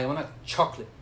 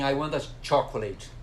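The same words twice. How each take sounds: First: Chocolate is said shortened, with syllables cut. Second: Chocolate is said in full, every syllable. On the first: The speaker calls it right. "Você fala, ... Então ele é muito abreviado" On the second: The speaker calls it wrong. "você não fala assim"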